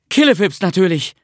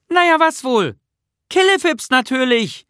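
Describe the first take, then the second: First: Put-on raised, loud boy's recital; loud repeated word. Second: High, loud little-creature call. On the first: Bertil tries out the magic word he was given, loud recital. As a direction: repeat it loudly, pitched up, falling at the end. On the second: Nisse calls the magic word up to Bertil, calling out. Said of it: "rief Nisse". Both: A narrator's reading.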